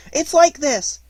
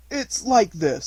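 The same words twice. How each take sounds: First: Very high, loud, quick interjection; quick Piglet. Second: Raised voice, tentative start; Pooh explaining. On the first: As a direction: jump in hurriedly with a little high voice. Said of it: "said Piglet quickly". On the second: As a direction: try to begin an awkward explanation. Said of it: "he wasn't explaining very well". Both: A narrator's reading.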